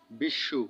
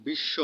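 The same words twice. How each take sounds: First: বিশ্বু said with a doubled sh and a final u, bishshu; pronounced bishshu. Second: Said in the usual way. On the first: Shown as a demonstration. (শ দ্বিত্ব করে শেষে উ দিয়ে বিশ্বু) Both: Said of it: "দ্বিত্ব উচ্চারণ হয়".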